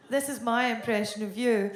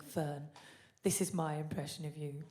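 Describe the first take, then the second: First: Louder retaliatory announcement; comeback impression lead-in. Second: Soft, lower setup voice; friend's lead-in. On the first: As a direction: throw the setup back at the friend, louder. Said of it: "still not getting that Cockney accent". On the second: Retold or imitated. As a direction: quietly announce the impression, as the friend would. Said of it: "She's always like".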